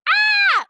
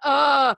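First: It is a high, girlish exclamation. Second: It is a deep, manly exclamation.

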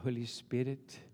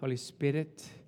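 First: It is said with a hushed, mysterious air. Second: It is said in a plain, ordinary way.

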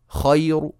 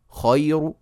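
No difference in how they are said.

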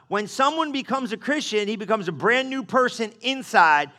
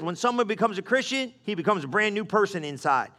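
First: The passage is read at a slower pace. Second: The passage is read at a fast pace.

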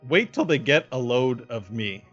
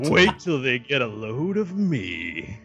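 First: It is said in the speaker's ordinary voice. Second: It is said in a put-on character voice. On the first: "I'm trying not to do impressions because it gives it away" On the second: "To. I just close as I can"

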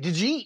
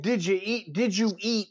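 First: The words are squeezed together into one word. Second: The words are said clearly and separately. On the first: "We take a whole sentence and we, you know, ... We say" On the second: "instead of saying"

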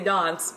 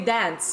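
First: The word is said in a posh British accent. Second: The word is said in an American accent. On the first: "it sounds very posh" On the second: "you'd say dance if you were singing"

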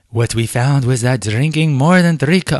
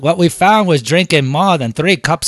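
First: It is spoken in a general British accent. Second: It is spoken in a Cockney accent. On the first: "Oh, that's horrible, British accent" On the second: "Let me do my cockney"

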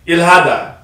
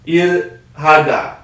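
First: The word is said fast. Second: The word is said slowly.

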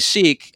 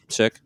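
First: The vowel is long, like in 'seek'. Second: The vowel is short, like in 'sick'. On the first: The speaker calls it wrong. "some people say Sikh, and it's wrong" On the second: The speaker calls it right. "That's how you say it"

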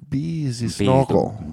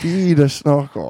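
First: It is spoken with a put-on French accent. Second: It is spoken in a plain, natural accent.

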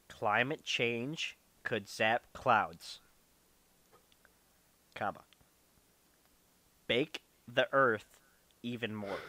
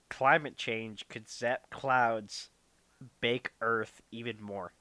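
First: It is read very slowly. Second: It is read at a normal pace.

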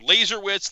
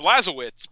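First: An R sound is heard in the name. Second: No R sound is heard in the name. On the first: The speaker calls it wrong. "everybody, you know, is trying for Laserwitz" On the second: The speaker calls it right. "The R is not pronounced. So it's Lazowitz"

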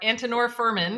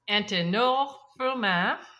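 First: The name is said with English-style pronunciation. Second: The name is said with French-style pronunciation.

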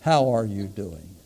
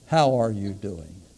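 First: It is asked with sincere, caring interest. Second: It is asked with sincere, caring interest.

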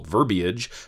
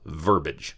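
First: The word has three syllables. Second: The word has two syllables. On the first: The speaker calls it right. "the three-syllable verbiage" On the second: The speaker calls it wrong. "the two-syllable verbiage"

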